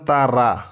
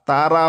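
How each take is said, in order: First: The final vowel is drawn out long. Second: The same.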